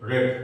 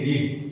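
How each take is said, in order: First: The vowel is short, like in 'bed'. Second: The vowel is long, like in 'seed'. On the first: It is the past or past participle form. "Past participle form উচ্চারণ হবে রেড" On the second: It is the present tense form. "Present form উচ্চারণ কি হবে?"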